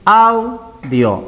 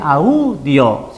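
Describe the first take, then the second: First: The A sounds stronger than the U. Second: The U sounds stronger than the A. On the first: The speaker calls it right. "sino audio. La A suena más" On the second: The speaker calls it wrong. "No se dice audio"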